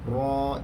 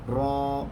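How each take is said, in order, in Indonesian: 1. Vokalnya hanya ditahan dua ketukan. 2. Vokalnya hanya ditahan dua ketukan.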